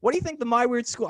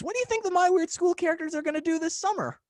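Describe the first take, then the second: First: Said in the usual way. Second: High, fast radio DJ patter. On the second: Shown as a demonstration. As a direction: pitch it like a hyped radio DJ. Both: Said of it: "I'm gonna use my radio D J voice for this".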